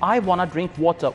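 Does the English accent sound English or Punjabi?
English. It is spoken with an English accent. The speaker calls it right. "English में feel होगा कि English है।"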